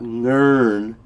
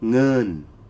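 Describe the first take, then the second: First: The word is said with an R sound. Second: The word is said without an R sound. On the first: The speaker calls it wrong. "you don't pronounce that R. It's not ngern" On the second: The speaker calls it right. "It's nun"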